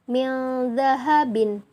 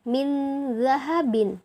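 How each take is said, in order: First: The n is hidden with a long nasal hum. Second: The n is pronounced plainly, without a nasal hum. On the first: The speaker calls it right. "didengungkan atau digunahkan" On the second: The speaker calls it wrong.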